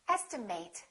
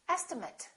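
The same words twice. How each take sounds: First: The last syllable sounds like 'eight'. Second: The last syllable sounds like 'it'. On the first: It is used as a verb. "This can be a verb" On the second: It is used as a noun. "if it's a noun"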